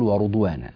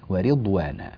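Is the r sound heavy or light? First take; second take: heavy; light. First: The r is heavy and full-mouthed. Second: The r is light and thin. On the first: The speaker calls it wrong. "لا نقول" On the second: The speaker calls it right. "الراء هنا مكسورة"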